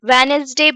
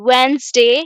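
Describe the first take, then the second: First: The word is said with three syllables. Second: The word is said with two syllables. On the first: The speaker calls it wrong. "वेनेसडे भी नहीं" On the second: The speaker calls it right. "इसको वेंसडे पढ़ेंगे"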